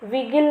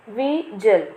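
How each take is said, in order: First: The middle consonant is a hard g sound. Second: The middle consonant is a soft j sound. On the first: The speaker calls it wrong. "विगिल नहीं पढ़ना इसे" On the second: The speaker calls it right. "इसे pronounce करेंगे विजल"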